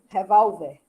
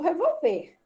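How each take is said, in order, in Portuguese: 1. O acento fica na segunda sílaba. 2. O acento fica na última sílaba. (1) "Se eu botar o acento, vira arma" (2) "se eu não botar o acento, vira verbo revolver"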